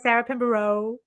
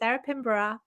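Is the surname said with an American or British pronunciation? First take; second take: American; British. First: The surname has an American pronunciation. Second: The surname has a British pronunciation. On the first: The speaker calls it wrong. "America is very Sarah Pinborough" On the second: The speaker calls it right. "every time you say Sarah Pinborough"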